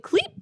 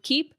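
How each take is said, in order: First: "Cleep" with an extra L after the K, pitched high; mispronounced keep. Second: Said in the usual way. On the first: Retold or imitated. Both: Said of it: "trying so hard to say the word keep".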